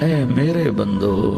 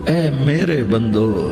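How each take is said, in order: No difference in how they are said.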